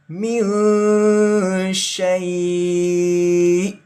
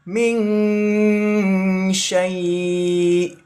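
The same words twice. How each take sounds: First: The nasal sound is light and brief. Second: The nasal sound is held for longer. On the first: The speaker calls it right. "kita contohkan yang betul" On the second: The speaker calls it wrong. "Kalau misalkan ditahan, nanti seperti ini contohnya"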